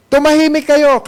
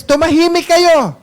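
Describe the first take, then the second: First: "Tumahimik kayo" said higher and firm again; angry command. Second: Higher, sharp order to hush; angry command. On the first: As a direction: repeat the hush order, a bit less sharp. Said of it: "nagalit yung mga leaders". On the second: Preacher voicing angry high priests telling crowd to hush. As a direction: act the priests silencing the crowd. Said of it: "nagalit naman yung mga high priest". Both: Retold or imitated.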